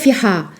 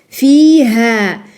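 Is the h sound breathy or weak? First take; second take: weak; breathy. First: The h sound is weak and barely breathed. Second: The h sound is clearly breathed out, sighed. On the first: The speaker calls it wrong. "N'est pas fiha" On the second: The speaker calls it right. "Soupire bien le ha"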